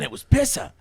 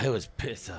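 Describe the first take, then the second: First: It sounds enthusiastic and delighted. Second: It sounds flat and let down. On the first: The date went really well. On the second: The date went really badly.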